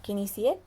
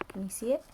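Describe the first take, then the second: First: Said in the usual way. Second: Breathy secret whisper, rising at the end. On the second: Real, not acted. Asks child to spot rock.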